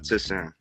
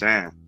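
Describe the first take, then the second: First: The name starts with an added 'ti' syllable. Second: The name starts directly with an 's' sound. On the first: The speaker calls it wrong. "It's not Tisan" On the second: The speaker calls it right. "It's just San"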